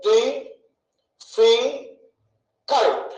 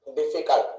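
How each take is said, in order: First: "డి ఫి కల్ట్" as three separate beats, long pauses between; split into syllables. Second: Said in the usual way. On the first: Shown as a demonstration. Teacher counting syllables for students, "డి ఫి కల్ట్" slowly separated. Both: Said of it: "ఎన్నని".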